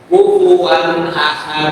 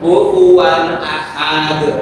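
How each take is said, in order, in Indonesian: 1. Vokal setelah huruf h itu pendek. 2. Vokal setelah huruf h dipanjangkan. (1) "Akhir ayat kalau pendek tetap pendek"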